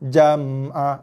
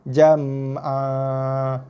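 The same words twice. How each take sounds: First: The final vowel is cut off abruptly. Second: The final vowel is held for two counts. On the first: The speaker calls it wrong. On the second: The speaker calls it right. "dua harakat eh"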